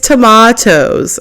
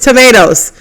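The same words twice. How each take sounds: First: Tomatoes is said in a British accent. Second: Tomatoes is said in an American accent. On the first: "he was saying some words with British accents" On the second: "We are very American"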